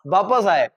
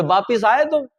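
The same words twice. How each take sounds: First: वापस with a short a after प; teacher modelling वापस; correct form. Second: वापिस with an i after प; a casual question using वापिस; wrong form. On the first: Shown as a demonstration. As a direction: say वापस as vaa-pas. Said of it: "वापस आने की जरूरत". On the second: Retold or imitated. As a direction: imitate someone saying वापिस. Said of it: "जबरदस्ती ई घुसाए जा रहे हैं".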